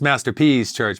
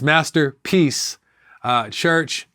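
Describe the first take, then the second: First: The name is said quickly, run together. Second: The name is said slowly with a pause. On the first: The church seems to belong to someone else. The speaker calls it wrong. "When you say it fast" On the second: This is the church's real name. The speaker calls it right. "but it is"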